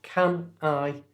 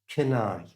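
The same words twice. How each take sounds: First: The two words are said separately. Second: The two words are joined together smoothly.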